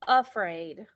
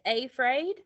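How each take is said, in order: First: The first vowel is a short 'uh' sound. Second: The first vowel is a long 'ay' sound. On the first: The speaker calls it right. "we normally pronounce the first a ... as the schwa sound for uh" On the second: The speaker calls it wrong. "Is that how we normally say it?"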